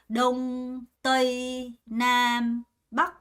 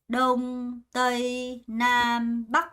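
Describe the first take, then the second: The two takes are said the same way.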